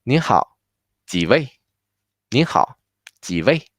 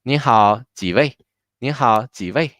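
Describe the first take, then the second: First: 您好 and 几位 said separately, a clear pause between them; careful teacher's model, one chunk at a time; piece by piece. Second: 您好 and 几位 run together quickly; whole thing fast. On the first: Teacher putting the greeting together for students, piece by piece. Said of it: "so together will be". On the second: Teacher modeling the waiter's greeting for students, whole thing fast. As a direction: say the greeting in one brisk go. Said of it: "The whole thing fast". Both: Shown as a demonstration.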